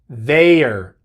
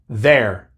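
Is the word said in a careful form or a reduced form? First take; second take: careful; reduced. First: The word is said in a careful, full form. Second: The word is said in a quick, reduced form. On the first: The speaker calls it right. "realmente la pronunciación correcta es their" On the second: The speaker calls it wrong. "Cuando estamos hablando rápido, muchas veces decimos nada más there"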